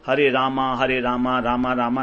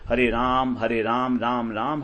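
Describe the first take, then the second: First: Each Rama ends with a long 'aa' vowel. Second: Each Rama ends without a final vowel. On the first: The speaker calls it wrong. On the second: The speaker calls it right.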